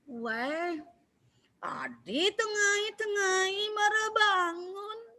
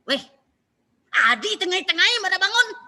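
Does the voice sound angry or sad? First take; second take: sad; angry. First: It sounds sad, with the voice lowered. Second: It sounds angry, with the voice pushed up.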